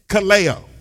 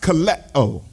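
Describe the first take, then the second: First: The vowel before the final o is long. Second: The vowel before the final o is short. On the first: The speaker calls it wrong. "not kaleo" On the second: The speaker calls it right. "it would be pronounced kaleo"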